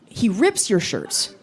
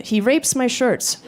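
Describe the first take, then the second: First: "rips" said with a short clear "i", the right word; slowly, carefully correcting to "rips" with a short "i"; corrected word. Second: "rapes" said with a long "ay" sound, so that it sounds like the word rapes; the accented "rapes" that should be "rips"; misheard accent. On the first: Shown as a demonstration. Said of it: "and I was like, "Oh, oh". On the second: Retold or imitated. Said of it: "some of the words he said sounded like other words".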